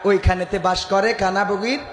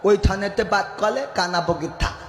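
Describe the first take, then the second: First: It is said in the speaker's normal voice. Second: It is said in a lisping, childlike voice.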